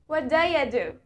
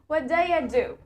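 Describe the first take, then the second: First: Do you is blended into a shortened daya. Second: Do you is blended into a shortened daya.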